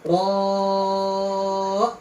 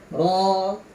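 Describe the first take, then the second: First: The vowel is stretched much longer. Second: The vowel is held for two counts. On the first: The speaker calls it wrong. "bukan ro, bukan" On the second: The speaker calls it right. "dua harokat"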